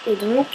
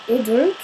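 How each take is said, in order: Both takes have the same delivery.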